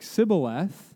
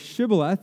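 First: The word begins with an 's' sound. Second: The word begins with an 'sh' sound. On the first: The speaker calls it wrong. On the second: The speaker calls it right.

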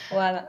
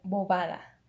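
First: The middle consonant is dropped, sounding like boada. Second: Every consonant is clearly pronounced, sounding like bobada. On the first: This is the casual way it is said in Colombia. "Suena casi como si no hubieran consonantes en la palabra" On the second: This is how it would be said in Mexico. "ellos articulan muy bien los sonidos"

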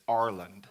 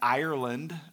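First: The opening 'I' sound is not pronounced. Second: The opening 'I' sound is fully pronounced. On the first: The speaker calls it right. "So you don't pronounce the I" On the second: The speaker calls it wrong. "I've been saying Ireland"

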